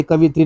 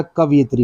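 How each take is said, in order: First: कवित्री with plain i after क, no य sound; wrong form said out. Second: कवयित्री with a clear य glide after कव; correct form said out. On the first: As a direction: say कवित्री as the mistaken three-syllable form. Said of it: "कवित्री नहीं होता". (गलत उच्चारण कवित्री, बिना य के) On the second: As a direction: stress the य in कवयित्री to fix the error. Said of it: "कवयित्री होता है". (सही उच्चारण कवयित्री, य साफ़ बोलें) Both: Shown as a demonstration.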